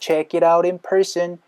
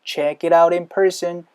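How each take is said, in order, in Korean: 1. 'out'이 바로 'in'으로 이어지고 T는 살짝 굴려요. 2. 'out'이 바로 'in'으로 이어지고 T는 살짝 굴려요.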